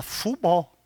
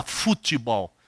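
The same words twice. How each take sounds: First: "futebol" as two syllables, FU-BOL, softly; "futebol" as a soft "fubol"; American-style pronunciation. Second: Said in the usual way. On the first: Shown as a demonstration. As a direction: leave out the middle "te" of "futebol", like English football. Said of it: "Ele fala futebol". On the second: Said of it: "americano não fala futebol".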